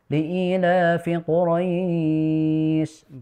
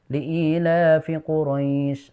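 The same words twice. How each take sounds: First: The vowel in Quraisy is held for four counts. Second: The vowel in Quraisy is held for two counts. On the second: "dibaca dua atau empat"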